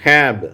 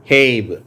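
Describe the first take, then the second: First: ஹேப் said as hap with a short a; ஹேப் with a flat short a. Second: ஹேப் said as hape with a long ay; ஹேப் with a long ay vowel. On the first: Teacher reading ஹேப் as hap. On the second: Teacher reading ஹேப் with long a after hap. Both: Shown as a demonstration. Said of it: "இன்னும் கூட நம்ம தொடர்ந்து வாசிக்கலாம்".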